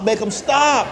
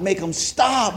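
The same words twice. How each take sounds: First: Desperate plea. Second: Said in the usual way. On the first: Retold or imitated. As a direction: beg the second "make 'em stop" harder, rising. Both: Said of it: "I'm like".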